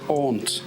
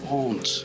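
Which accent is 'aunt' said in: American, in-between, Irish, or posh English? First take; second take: posh English; posh English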